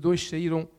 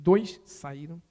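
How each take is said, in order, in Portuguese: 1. É rápido, com os sons do s juntos. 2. É mais devagar, com os sons do s separados. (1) "a gente junta os 2 S e faz um X" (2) "Deixa-me dizer mais devagar"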